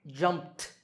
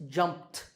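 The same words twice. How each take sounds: Both takes have the same delivery.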